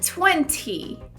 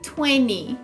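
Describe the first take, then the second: First: The T after the N is clearly pronounced. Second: The T after the N is dropped. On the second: "que eu costumo falar como se ele não existisse"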